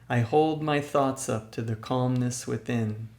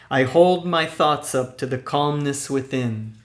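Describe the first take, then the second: First: It is said at a normal speaking level. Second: It is said loudly with lots of energy. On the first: "Secondly, with a normal speaking voice" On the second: "First with a loud, energetic voice"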